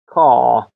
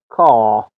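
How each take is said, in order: First: The r after the vowel is silent. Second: The same.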